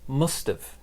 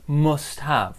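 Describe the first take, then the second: First: The two words blend into one reduced form. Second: Both words are said fully and separately. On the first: The speaker calls it right. "We say must have" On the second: The speaker calls it wrong. "we don't really say must have"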